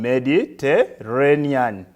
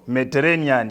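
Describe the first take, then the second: First: The word is split into separate syllables. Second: The word is said smoothly as one unit.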